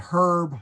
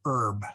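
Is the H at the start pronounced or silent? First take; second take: pronounced; silent. First: The word begins with an audible H. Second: The word begins without an H. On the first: The speaker calls it right. "the H is pronounced" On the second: The speaker calls it wrong. "not ... herb"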